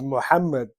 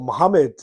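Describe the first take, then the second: First: The name is said with its full original sounds. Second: The name is said with simplified sounds. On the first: This is the proper form of the name. The speaker calls it right. "My name is Muhammad" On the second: This is an easier form for those who cannot say it properly. The speaker calls it wrong. "if you can't pronounce it correctly"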